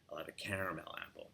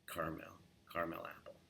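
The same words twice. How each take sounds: First: "caramel" said fast with three syllables; quick three-syllable "caramel"; New York caramel. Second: "Carmel apple" with "Carmel" in two syllables, soft. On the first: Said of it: "they would say caramel". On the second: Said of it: "keeping it". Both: Shown as a demonstration.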